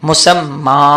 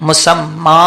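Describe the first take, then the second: No difference in how they are said.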